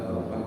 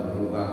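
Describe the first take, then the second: No difference in how they are said.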